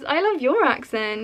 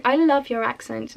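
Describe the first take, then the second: First: "your" carries the main emphasis; "your" stressed to turn it back. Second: Said in the usual way. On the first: Retold or imitated. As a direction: return the compliment, leaning on "your". Returns the same compliment, retold.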